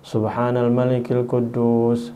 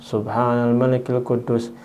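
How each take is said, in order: Both takes have the same delivery.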